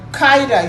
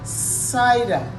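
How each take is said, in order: First: The word begins with a hard k sound. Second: The word begins with a soft s sound. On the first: The speaker calls it wrong. "you don't say cider" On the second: The speaker calls it right. "you say cider. It's soft"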